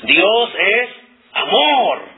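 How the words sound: The word amor is stressed. "quiero enfatizar la palabra amor"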